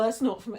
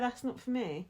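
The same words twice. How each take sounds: First: It is said in a strong, dismissive tone. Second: It is said in a light, easygoing tone. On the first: The idea is rejected with disapproval. The speaker calls it wrong. "you don't have to say it like that" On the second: It is simply a personal preference. The speaker calls it right. "Just say"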